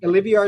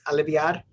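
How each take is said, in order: First: The name is said with an English pronunciation. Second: The name is said with a Spanish pronunciation. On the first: "Olivier is fine" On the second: "if you say it in Spanish, it's Aliviar"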